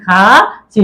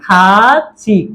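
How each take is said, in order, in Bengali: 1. মধ্যবর্তী ব্যঞ্জনটি ch এর মতো শোনায়। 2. মধ্যবর্তী ব্যঞ্জনটি ch এর মতো শোনায়।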